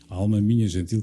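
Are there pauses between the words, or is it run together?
run together. The words run together without any pause. The line says nothing this way. The speaker calls it wrong. "tudo seguido"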